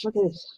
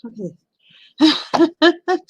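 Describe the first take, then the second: First: Said in the usual way. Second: Slow, high, stretched out in disbelief; drawn-out amazement. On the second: Real, not acted. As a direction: stretch it out, half laughing in disbelief.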